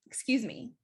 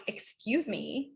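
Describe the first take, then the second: First: Light, courteous "excuse me"; polite tone. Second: Slow, drawn-out "excuse me" with attitude; rude tone. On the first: Coach showing students the better tone, polite. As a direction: say it pleasantly, with no attitude. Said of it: "very different than me saying". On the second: Coach showing students a tone to avoid, rude. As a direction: stretch it out, arms crossed and affronted. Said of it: "with that tone and my arms crossed". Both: Shown as a demonstration.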